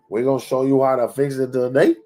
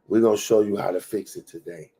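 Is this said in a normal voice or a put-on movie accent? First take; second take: put-on accent; normal. First: It is said in a put-on movie gangster accent. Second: It is said in the speaker's own normal accent.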